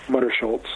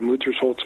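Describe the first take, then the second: First: The name ends with a 'shultz' sound. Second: The name ends with a 'holz' sound. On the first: The speaker calls it wrong. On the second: The speaker calls it right.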